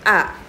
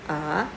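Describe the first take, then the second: First: The pitch drops sharply from high. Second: The pitch rises from mid to high. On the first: "Nada empat dibentak" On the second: "Nada dua ... seperti orang bertanya"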